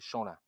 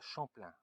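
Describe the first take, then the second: First: The P sound in the name is silent. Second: The P sound in the name is pronounced. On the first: The speaker calls it right. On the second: The speaker calls it wrong.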